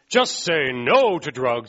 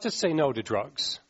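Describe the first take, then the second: First: It is said in a firm, forceful way. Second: It is said in a gentle, mild way. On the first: It is a strong barrier. "It's not like" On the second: It is a weak barrier. "It almost sounds a little too warm and fuzzy to me"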